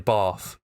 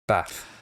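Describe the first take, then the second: First: The word is said in a non-northern accent. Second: The word is said in a northern accent. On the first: "I say bath" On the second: "some people say bath, like a northern thing"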